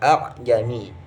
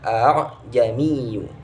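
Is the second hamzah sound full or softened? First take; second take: full; softened. First: The second hamzah is pronounced as a full stop. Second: The second hamzah is pronounced softened and light. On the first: The speaker calls it wrong. "tidak boleh dibaca" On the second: The speaker calls it right. "harus dibaca"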